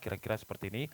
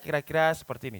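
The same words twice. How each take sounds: First: It is spoken at a normal conversational loudness. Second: It is spoken loudly, almost shouting. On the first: "Kalau misalkan saya ngomong biasa" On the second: "kalau saya ngomong teriak-teriak"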